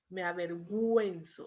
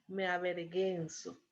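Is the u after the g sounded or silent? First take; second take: Sounded; Silent. First: The u after the g is pronounced. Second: The u after the g is silent. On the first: The speaker calls it right. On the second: The speaker calls it wrong.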